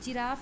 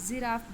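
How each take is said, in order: First: The word begins with a plain j sound. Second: The word begins with a buzzing z sound. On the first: The speaker calls it wrong. "हम जिराफ नहीं बोलते" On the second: The speaker calls it right. "जिराफ बोलते हैं"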